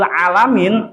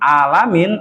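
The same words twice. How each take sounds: First: It starts with a throaty, constricted consonant. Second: It starts with a plain open vowel. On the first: Refers to the worlds, as in Lord of the worlds. The speaker calls it right. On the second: Refers to being silent, passive and dead. The speaker calls it wrong.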